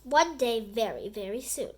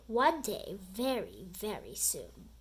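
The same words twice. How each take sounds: First: Said in the usual way. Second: Sinking lower and softer on each very; a principal's threat dropping to a low, soft hush; menacing vow fading low. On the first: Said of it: "Chapter five". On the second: A narrator's reading. Principal vows revenge on the boys, sinking low and soft. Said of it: "Mister Krupp vowed".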